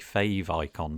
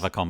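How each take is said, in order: First: The first syllable has a long a vowel. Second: The first syllable has a short a vowel. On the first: The speaker calls it wrong. "some people do say fave icon" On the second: The speaker calls it right. "I say favicon"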